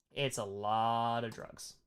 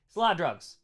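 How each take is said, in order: First: Softer and slower, letting it sink in; hushed repeat. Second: Said in the usual way. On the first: Shown as a demonstration. Teacher repeats the drug point to class, hushed and slow. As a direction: drop the voice for the echo.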